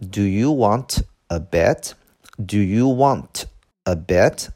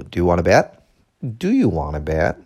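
First: Slow, separated "Do you want a bet"; slow teaching pace, words unlinked. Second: "want a" run together as "wanna" in "Do you want a bet"; connected-speech demo, "want a bet" blended smoothly; linked speech. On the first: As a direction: say each word of "Do you want a bet" apart. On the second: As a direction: link "Do you want a bet" into one quick phrase. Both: Shown as a demonstration. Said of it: "连读".

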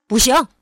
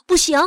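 First: Booming fatherly no; louder refusal. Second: High, loud motherly no; firm refusal. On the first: Father backs up mother's refusal, much louder. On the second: Mother refuses to let her son take the blanket, firm. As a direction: refuse sharply and loudly. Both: A narrator's reading. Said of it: "爸爸说得更大声".

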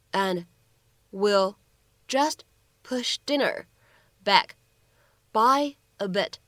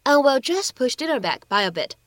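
First: Slow dictation with long pauses between chunks; word by word. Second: Said in the usual way. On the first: Shown as a demonstration. Teacher breaks the sentence down for learners, word by word. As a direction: break it into single words and short chunks, pausing after each.

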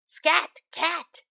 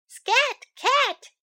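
First: Lightly voiced dog shooing the cat away; a hint of a gruff dog saying scram; the dog's "Scat Cat" voiced a little higher, only slightly louder. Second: High, chirpy bird voice shooing; the bird's "Scat Cat" pitched up high and a bit louder. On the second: Acted.

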